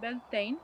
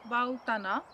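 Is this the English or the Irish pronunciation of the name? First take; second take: English; Irish. First: It is said the common English way. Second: It is said the Irish way. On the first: "În Anglia, țara Galilor și internațional, cea mai des întâlnită pronunție" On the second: "pronunția irlandeză"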